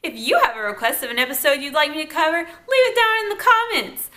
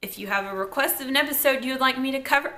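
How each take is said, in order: First: Said in the usual way. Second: Lightly done radio announcer read. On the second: Real, not acted. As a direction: read it like a quick radio spot. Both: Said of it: "I sound like a radio announcer".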